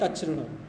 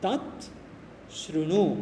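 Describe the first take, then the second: First: The two words are joined into one. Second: The two words are said separately.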